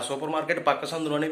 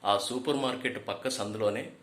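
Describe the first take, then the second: First: It is spoken at a faster pace. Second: It is spoken at an ordinary, normal pace. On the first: "ఇదే వాయిస్తో కొంచెం ఫాస్ట్గా చెప్పామనుకోండి" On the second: "general వాయిస్తో చెప్తాం"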